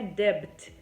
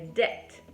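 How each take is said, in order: First: The b is pronounced before the t. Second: The b is not pronounced at all. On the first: The speaker calls it wrong. "não é debt" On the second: The speaker calls it right. "é debt"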